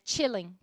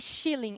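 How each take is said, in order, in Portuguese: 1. A palavra começa com o som de 'ch'. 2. A palavra começa com o som de 'sh'. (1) "é chilling" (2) "não é shilling"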